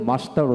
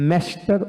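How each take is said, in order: First: মাস্টার with an open "ah", MAH-star; British "maas-tar" for মাস্টার; British pronunciation. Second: মাস্টার with a front "a" as in cat, MAS-tar; American মাস্টার, first vowel flattened to "æ"; American pronunciation. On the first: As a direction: say মাস্টার the British way, broad "aa" first. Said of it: "ব্রিটিশে মাস্টার উচ্চারণ করা হয়". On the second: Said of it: "আর আমেরিকানে". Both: Shown as a demonstration.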